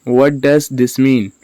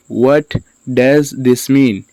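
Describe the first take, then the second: First: Said in the usual way. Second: Slow, with a pause after "What"; slow word-by-word. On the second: Shown as a demonstration. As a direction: teach "What does this mean" slowly, words apart. Teacher repeats word by word.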